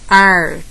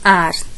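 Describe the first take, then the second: First: It is said in a São Paulo interior accent. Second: It is said in a São Paulo city accent. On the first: "No interior paulista" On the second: "na capital paulista"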